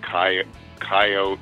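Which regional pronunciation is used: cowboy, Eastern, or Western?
Western. It is said the Midwestern or Western way. The speaker is from the Midwest or West. "Guys from the kind of the Midwest or West will say coyotes"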